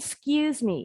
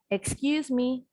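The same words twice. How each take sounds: First: The first vowel is reduced and unclear. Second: The first vowel is fully and clearly pronounced. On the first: The speaker asks to squeeze past someone. "Kalau ini" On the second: The speaker asks for someone's attention. "Tadi kan jelas"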